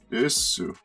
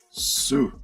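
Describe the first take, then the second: First: The word is said in full as desu. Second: The word is shortened to just su. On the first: "The polite copula" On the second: "Can be shortened. To su"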